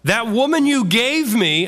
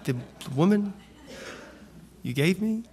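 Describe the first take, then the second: First: It sounds angry and defiant, like a protest. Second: It sounds meek and groveling, with a quieter voice. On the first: He is angrily blaming and protesting. The speaker calls it wrong. "I don't think he said it like that" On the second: He is trying to deflect attention onto her. The speaker calls it right. "I think it was more groveling"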